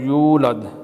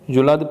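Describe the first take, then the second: First: The first vowel is drawn out long. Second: The first vowel is short. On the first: The speaker calls it right. "यू को खींचना है" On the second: The speaker calls it wrong. "युलद पढ़ना गलत है"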